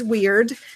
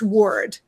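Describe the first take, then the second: First: The vowel rhymes with 'beard'. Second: The vowel rhymes with 'bird'. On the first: "some pronunciations is weird" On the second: "and some is word"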